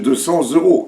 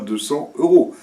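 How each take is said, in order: First: A z sound links cents to euros. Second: No z sound links cents to euros. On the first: The speaker calls it right. "c'est deux cents euros" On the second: The speaker calls it wrong. "et pas deux cents euros"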